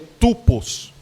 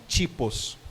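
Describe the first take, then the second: First: The first vowel sounds like 'oo'. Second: The first vowel sounds like 'ee'. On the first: The speaker calls it wrong. "você vai ver tupos" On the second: The speaker calls it right. "a verdade é tipos"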